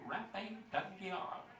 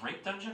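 First: The name is said with a fancy French-like sound. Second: The name is said plainly like ordinary English words. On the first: The name is taken to be an elegant French name. The speaker calls it wrong. "Is that French? Am I pronouncing that correctly?" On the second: The name reveals a crude, embarrassing meaning. The speaker calls it right.

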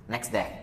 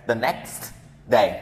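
First: The t is dropped and s links to day. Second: The t is stopped, with a break before day. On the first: The speaker calls it right. "Nói chữ sờ và chữ đờ luôn" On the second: The speaker calls it wrong. "nó bị khựng lại"

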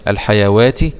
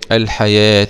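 First: The middle is pronounced with a w sound. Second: The middle is pronounced with a long a. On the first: The speaker calls it wrong. "اوعى تقول الحيوات الدنيا، الحيوات لا" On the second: The speaker calls it right. "يبقى بتنطق ألف"

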